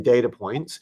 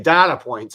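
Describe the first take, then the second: First: It is said the American way. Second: It is said the Australian way. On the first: "The Americans want to say data points" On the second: "the Australians say data points"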